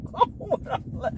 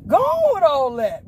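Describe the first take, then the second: First: Soft, voiceless words through laughter; laughing protest. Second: High, loud call to be left alone; loud protest. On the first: Pleading off more hardship with the Lord, laughing. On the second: Pleading off more hardship with the Lord, loud protest. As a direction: wave it off with a raised voice. Same protest, now called out. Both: Real, not acted.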